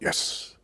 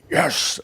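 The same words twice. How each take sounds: First: It is said calmly with low energy. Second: It is said loudly with great excitement.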